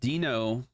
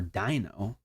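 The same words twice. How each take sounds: First: The first vowel differs from the one in 'dinosaur'. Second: The first vowel sounds like the one in 'dinosaur'.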